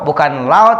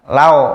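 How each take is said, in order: First: The diphthong is pronounced harshly, not softly. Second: The diphthong is pronounced softly and smoothly. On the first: The speaker calls it wrong. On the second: The speaker calls it right.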